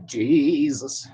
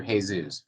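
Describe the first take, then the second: First: "Jesus" said Gee-zus, drawn out slowly; "Jesus" in plain English, stretched long. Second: "Jesus" said Hay-soos, Spanish style; "Jesus" with an h sound and soos at the end; Spanish Hey-sus. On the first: "Jesus" in English for lighter shades, said slowly. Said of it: "If you're lighter than this". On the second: "Jesus" as Hey-sus for darker skin shades. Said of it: "you're darker than this". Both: Shown as a demonstration.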